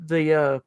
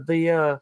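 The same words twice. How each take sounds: The two takes are said the same way.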